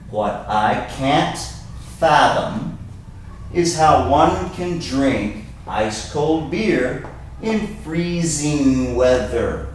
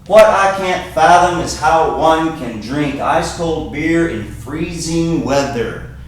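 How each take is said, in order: First: The sentence is spoken slowly. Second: The sentence is spoken very fast. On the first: "Let me say it again, slowly" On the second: "I said that very fast"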